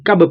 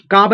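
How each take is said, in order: First: कब with a short a; correct short vowel. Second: काब with a long aa; wrong long vowel. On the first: Teacher correcting the reading for learners, कब with short a. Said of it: "काब नहीं पढ़ेंगे". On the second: Teacher rejecting a misreading to learners, काब with long aa. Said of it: "नहीं पढ़ेंगे". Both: Shown as a demonstration.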